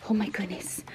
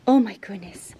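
First: Whispered. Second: Said in the usual way. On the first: Real, not acted. Awed by the dog's excitement.

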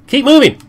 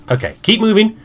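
First: Higher and louder urgent command; urgent shout. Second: Said in the usual way. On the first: Real, not acted. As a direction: yell at them to hurry.

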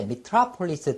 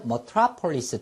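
First: Metropolis starting with "mi", mi-TRA-po-lis; first vowel of metropolis as a clear "ih"; pronunciation variant. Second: Metropolis starting with "muh", muh-TRA-po-lis; first vowel of metropolis relaxed to "uh"; pronunciation variant. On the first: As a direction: say metropolis as "mih-TRAH-puh-lis". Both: Shown as a demonstration. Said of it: "두 개 다 발음이 됩니다".

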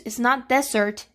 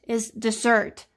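First: "dessert" said like desert, stress on the first syllable, DEZ-ert; wrong stress, desert. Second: "dessert" with stress on the second syllable, dih-ZERT; correct dessert. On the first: Teacher showing the word students confuse, "dessert" stressed DEZ-ert. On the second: Teacher giving the right form, "dessert" stressed di-ZERT. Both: Shown as a demonstration. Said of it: "Don't confuse".

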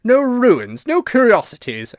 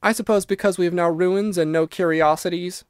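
First: High, loud ghostly disbelief; incredulous, high-pitched outburst; indignant exclamation. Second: Put-on lightly satirical girl, pitched up; a touch of mock reasoning. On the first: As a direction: throw the words back, scandalised. Ghost retorts to Virginia's satire. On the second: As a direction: say it with mild satire. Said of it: "said Virginia satirically". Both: A narrator's reading.

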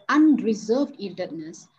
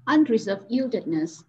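First: Unreserved drawn out slowly, weightier than yieldedness; stress on UNRESERVED. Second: Said in the usual way. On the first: Shown as a demonstration. Teacher recalling the word that intrigued her, stressing UNRESERVED. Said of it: "there was an emphasis on the word unreserved".

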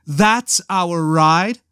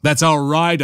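First: Slow, higher question on "That's our ride"; incredulous echo. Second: Said in the usual way. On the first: A narrator's reading. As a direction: stretch "That's" and rise in disbelief on "ride". Leia's incredulous echo of Han.

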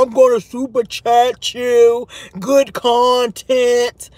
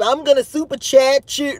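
First: Slow, put-on disguised voice; mock voice changer. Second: Said in the usual way. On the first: Host mimicking the troll calling into another show, disguised voice. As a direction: imitate a caller drawling through a voice changer. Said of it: "with the voice changer". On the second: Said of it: "he done called into Fire Babe".

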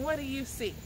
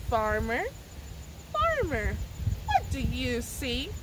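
First: Said in the usual way. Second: Chanted, slow, lilting call-and-response rhythm; sing-song chant. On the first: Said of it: "Laser vision". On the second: Shown as a demonstration. Librarian leading children through the poem, slow chant. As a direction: chant the poem line for the kids to echo. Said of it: "let's do that first line together".

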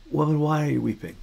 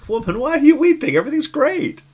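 First: Said in the usual way. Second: High, bright-voiced breezy reading that misses the grief; chirpy, much higher, dismissive; mock cheerful reading. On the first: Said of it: "a real invitation". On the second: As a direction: sing it out as if nothing is wrong. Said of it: "it was sort of read that way".

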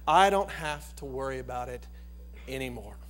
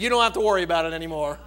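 First: Sincere and quiet. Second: Rushed, fast punchline delivery; quick punchline. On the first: Acted. Preacher leading the flock to trust the shepherd, quiet sincere. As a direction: let it settle in softly. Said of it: "we ought to be able to say tonight". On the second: Retold or imitated. Little boy confessing the broken dish, quick punchline. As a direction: tumble the words out quickly. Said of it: "He said".

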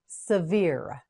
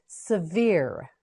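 Both takes have the same delivery.

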